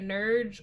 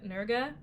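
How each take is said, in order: First: The name is said in an anglicized way. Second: The name is said in a German way. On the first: "I'm going to say it two ways" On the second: "better-ish German pronunciation"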